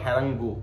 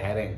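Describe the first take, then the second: First: The word ends with an extra vowel sound. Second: The word ends on a nasal consonant sound. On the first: The speaker calls it wrong. "Not হ্যারাঙ্গু" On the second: The speaker calls it right. "হ্যারাং উচ্চারণ"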